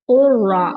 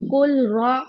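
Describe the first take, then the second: First: The L merges into a doubled R sound. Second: The L is pronounced separately before the R. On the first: The speaker calls it right. "is कुर्रा" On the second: The speaker calls it wrong. "no, it is not कुलरा"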